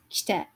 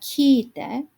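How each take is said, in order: First: The word is said with no break or lengthening. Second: The first vowel is held long. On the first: The speaker calls it right. "So notice this is kite" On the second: The speaker calls it wrong. "and it's not kiite"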